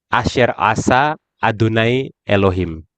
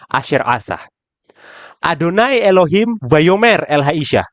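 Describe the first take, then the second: First: There is a pause after the word Elohim. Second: There is a pause after the word asa. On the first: The serpent is the one speaking to the woman. "Kalau yang pertama, ya, yang bicara di sini adalah Hanahas" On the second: God is the one speaking to the woman. "Kalau yang kedua, Adonai Elohim yang Amar El Haisha"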